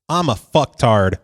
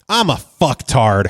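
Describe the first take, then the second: First: It is said plainly, without much feeling. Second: It is said with strong emotional feeling.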